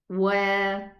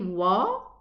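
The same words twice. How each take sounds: First: The vowel sounds light and open. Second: The vowel sounds heavy and raised. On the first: The speaker calls it right. "But it's wa" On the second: The speaker calls it wrong. "If I say wa, it's elevated"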